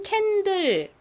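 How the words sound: It is said with a Korean pronunciation.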